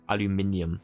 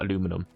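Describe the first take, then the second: First: It has an extra syllable before the ending. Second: It has no extra syllable before the ending. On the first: "we have an extra I in there" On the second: "not aluminum"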